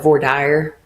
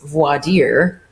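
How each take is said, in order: First: It uses the Texan regional pronunciation. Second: It uses the standard, original-style pronunciation. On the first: This is how people in Texas say it. "we call it voir dire here in Texas" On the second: This is the proper pronunciation used elsewhere. "like the actual pronunciation is voir dire"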